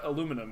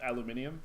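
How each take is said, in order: First: It is said in the non-British way. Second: It is said in the British way.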